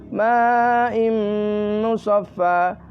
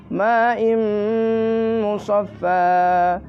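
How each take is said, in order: No difference in how they are said.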